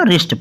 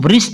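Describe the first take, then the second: First: The W sound is silent. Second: The W sound is pronounced. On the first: The speaker calls it right. "रिस्ट पढ़ना है" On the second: The speaker calls it wrong. "इसको वृष्ट नहीं पढ़ना"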